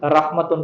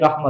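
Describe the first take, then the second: First: The word ends with a full -tun ending. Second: The word ends with a bare -a sound. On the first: The word is read on without stopping. "जैसे हाज़िही रहमतुन को आप क्या कहेंगे?" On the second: The reader stops on the word. "हाज़ी रहमा कहेंगे"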